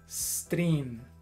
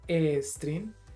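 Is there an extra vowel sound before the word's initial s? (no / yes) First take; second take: no; yes. First: The word starts directly with the s sound. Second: An extra vowel sound comes before the s. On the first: The speaker calls it right. "debes dejarla cerrada" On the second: The speaker calls it wrong. "No debes hacer esto, e string"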